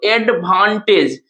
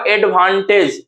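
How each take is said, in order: First: एडवांटेज slowly, in three separate parts; एडवांटेज drawn out syllable by syllable; broken into syllables. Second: Said in the usual way. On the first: Shown as a demonstration. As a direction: split एडवांटेज as ad, van, tage. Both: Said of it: "तोड़ के लिखते हैं".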